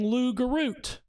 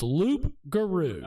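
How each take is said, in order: First: The word ends with an added t sound. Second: The word ends on a vowel, no t. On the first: The speaker calls it wrong. "we've been saying it wrong the whole time" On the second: The speaker calls it right. "It's Loup-garou"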